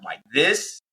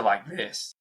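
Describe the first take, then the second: First: Energy up. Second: A deflated "like this"; energy draining. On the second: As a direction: lower and softer, deflated. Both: Shown as a demonstration. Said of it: "I can feel the energy go from like this".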